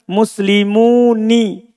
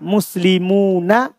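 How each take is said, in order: First: The final nun carries an 'i' vowel. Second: The final nun carries an 'a' vowel. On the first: A rare reading used by few speakers. "orang yang membaca apa? Muslimuni" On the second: The original, standard reading. "Tapi asalnya apa? Fathah"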